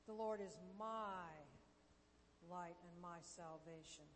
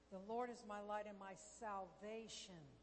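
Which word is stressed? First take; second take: my; salvation. First: The stress falls on the word 'my'. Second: The stress falls on the word 'salvation'. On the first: The focus is on the listener owning the promise. "You're gaining ownership of it" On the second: The focus is on what salvation includes. "what does salvation include?"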